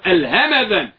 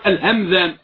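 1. الصوت m متبوع بحركة قصيرة. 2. الصوت m ساكن ولا تتبعه حركة. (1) "بلا إسكان الميم، نقول الهمذان" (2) "لا نقول الهمذان"

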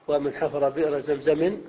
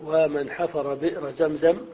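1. تنتهي الكلمة الأخيرة بنون زائدة. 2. تنتهي الكلمة الأخيرة بدون نون. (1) "وإن وصلت طبعا تنون" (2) "تقف"

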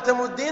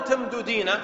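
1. تندمج الدالان وتصبحان دالًا واحدة طويلة. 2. يفصل بين الدالين حركة.

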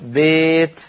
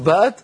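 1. الصوت يميل من a نحو e. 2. الصوت فتحة مفتوحة تماماً. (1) "تقول بيت... هو الإمالة الكبرى" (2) "لا تقول بات"

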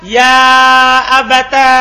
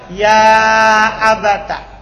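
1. Kata ini berakhir dengan vokal a panjang. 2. Kata ini berakhir dengan vokal a pendek. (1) "dikumpulkan antara ta dan alif" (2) "Dia fathah ta-nya"

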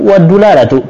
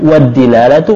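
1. Huruf d pertama diikuti vokal u. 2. Huruf d pertama diikuti vokal i. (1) "Dalnya bisa dikasih tiga harakat" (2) "Dalnya bisa dikasih tiga harakat"

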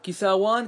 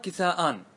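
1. صوت الواو يأتي قبل لاحقة المثنى. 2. الهمزة تأتي قبل لاحقة المثنى. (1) "يجوز بالواو" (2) "يجوز بالهمز"

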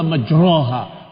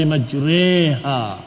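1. Vokal setelah r adalah a yang penuh. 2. Vokal setelah r ada di antara a dan i. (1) "bukan pula majroha" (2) "Tapi majriha. ... dibaca di antara dua keduanya"

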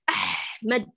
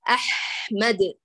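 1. صوت h فيه احتكاك خشن يشبه الكشط. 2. صوت h ناعم بدون احتكاك خشن. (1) "لا أحك هكذا. هذا تكلف" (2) "أقول أح، أحمد"

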